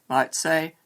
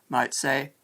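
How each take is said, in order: No difference in how they are said.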